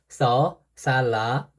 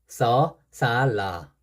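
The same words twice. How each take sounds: No difference in how they are said.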